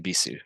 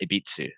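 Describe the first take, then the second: First: The final u is pronounced with no t. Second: A t sound is inserted before the final u. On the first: The speaker calls it right. "Just Ibisu circuit" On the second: The speaker calls it wrong. "some people put T's in there too"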